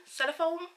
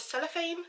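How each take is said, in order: First: Cellophane? said as "sell-o-phone", rising and unsure; retry Cellophane? ending in "phone", higher; second guess. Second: Cellophane? said as "sell-o-fane", rising and unsure; unsure guess. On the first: Second try at the word, Cellophane? with "phone" ending. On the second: Groping for the word, Cellophane? with "fane" ending. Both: Shown as a demonstration. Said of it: "what is it called?".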